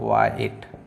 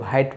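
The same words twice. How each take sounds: First: No h sound is heard at the start. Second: An h sound is heard at the start. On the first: The speaker calls it right. "एच नहीं पढ़ा जाएगा" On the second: The speaker calls it wrong. "इसको हम लोग ज़्यादातर क्या पढ़ते हैं, वाइट पढ़ते हैं, जबकि वाइट गलत वर्ड हो जाएगा"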